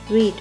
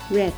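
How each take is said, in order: First: The vowel is long, rhyming with 'need'. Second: The vowel is short, rhyming with 'bed'. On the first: It is the present tense. "読むという動詞read" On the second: It is the past tense. "read は発音が変わります。red になります。"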